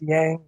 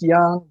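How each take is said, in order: First: The name is said with an American-style vowel. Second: The name is said with a Chinese-style vowel. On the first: This is the version the bearer uses himself. "he goes with Yang, which is more Americanized" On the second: This is how the name is properly pronounced. "it's pronounced Yang"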